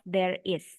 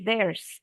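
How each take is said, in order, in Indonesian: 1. Kedua kata itu diucapkan sebagai suku kata yang terpisah. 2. Kedua kata itu menyatu menjadi satu suku kata. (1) "instead of there is" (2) "the way to say it naturally is to blend it"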